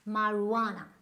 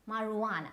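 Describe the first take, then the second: First: The j is left silent. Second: The same.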